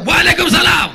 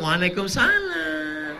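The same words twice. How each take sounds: First: Higher, louder, firm phone answer. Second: Higher, slow, soft feminine answer; soft, languid answer. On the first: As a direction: answer the phone firmly and loud. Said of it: "kau harus tegas". (jawaban telepon yang tegas dan lantang) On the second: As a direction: coo it sweetly down the phone. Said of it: "suara yang lemah lembut". (jawaban lemah gemulai di telepon) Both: Shown as a demonstration.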